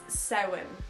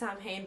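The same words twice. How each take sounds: First: It is said with the traditional native pronunciation. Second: It is said with the common American pronunciation. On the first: The speaker calls it right. "but it's Samhain" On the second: The speaker calls it wrong. "I understand why you guys pronounce it Samhain"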